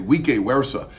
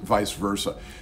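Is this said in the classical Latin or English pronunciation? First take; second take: classical Latin; English. First: It uses the classical Latin pronunciation. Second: It uses the usual English pronunciation. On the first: The speaker calls it wrong. "the Latin pronunciation, classical, we'd say" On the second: The speaker calls it right. "in English, we've taken it and pronounced it"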